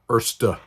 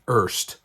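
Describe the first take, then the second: First: The name is said in a German way. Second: The name is said in an anglicized way. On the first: The speaker calls it right. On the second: The speaker calls it wrong.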